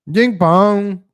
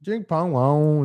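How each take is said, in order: First: Loud, higher mock gibberish; John Cena mock voice. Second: Slow, drawn-out mock gibberish; John Cena mock voice. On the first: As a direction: bark the nonsense words out, lightly mocking. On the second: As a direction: stretch each nonsense word lazily. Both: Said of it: "That's how John Cena talks".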